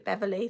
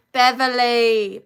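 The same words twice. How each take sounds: First: Said in the usual way. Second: Loud, drawn-out call of the name Beverly; Beverly stretched slow and loud, like hailing a friend. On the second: Real, not acted. Host calls out to a viewer, loud and drawn out.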